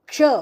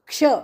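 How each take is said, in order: Both takes have the same delivery.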